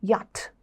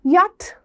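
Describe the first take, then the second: First: യാട്ട് said softly with a light t; soft, dropped യാട്ട്; quiet correct യാട്ട്; correct yak. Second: യാട്ട് with a hard t; hard-ending യാട്ട്; wrong യാട്ട്; wrong yak. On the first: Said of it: "you have to say". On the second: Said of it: "യാട്ടെന്നല്ല". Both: Shown as a demonstration.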